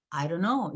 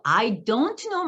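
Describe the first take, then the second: First: "I don't know" as "ai-ro-no"; reduced spoken form. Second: "I don't know" slowly, each word separate; careful full form. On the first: Shown as a demonstration. Teacher showing how it sounds, "I don't know" reduced. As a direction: glide through "I don't know" without d or t. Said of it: "실제로 구어에서 어떻게 들려요?". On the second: Retold or imitated. Mom asking daughter to confirm, "I don't know" fully articulated. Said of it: "너 I don't know 말하는 거지?".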